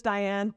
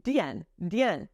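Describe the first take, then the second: First: Diane with the English eh vowel, die-ANN; English pronunciation. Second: Diane with French dee and nasal en, dee-EN; French pronunciation. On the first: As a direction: say Diane the American way, eh sound in the middle. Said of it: "that's how we say it in English". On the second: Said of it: "D I in French is Di". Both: Shown as a demonstration.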